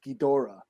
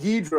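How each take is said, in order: First: The name is said the Japanese, fuller way. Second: The name is said the anglicized, shortened way. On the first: This is how Japanese speakers say it. The speaker calls it right. "I heard the Japanese say it's Ghidorah" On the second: This is how the speaker long said it. The speaker calls it wrong. "it was King Ghidra all my life"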